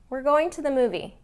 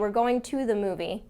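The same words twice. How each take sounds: First: The word 'to' is reduced to 'ta'. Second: The word 'to' is said fully and carefully. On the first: The speaker calls it right. "A lot of times it's pronounced ta" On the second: The speaker calls it wrong. "We wouldn't say"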